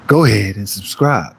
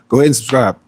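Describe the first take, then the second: First: It is said with a cocky, swaggering style. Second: It is said in a plain, normal way.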